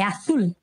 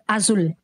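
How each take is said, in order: First: The middle consonant is a th-like sound. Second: The middle consonant is a buzzing z sound. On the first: The speaker calls it right. "É azul. ... Parece o T H do inglês" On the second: The speaker calls it wrong. "Não é az- azul"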